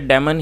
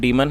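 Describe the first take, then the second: First: The first vowel is a short 'eh' sound. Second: The first vowel is a long 'ee' sound. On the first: The speaker calls it right. "इसे डेमन ही पढ़ा जाता है" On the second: The speaker calls it wrong. "Correct pronunciation है वो डीमन है। तो ऐसा नहीं है"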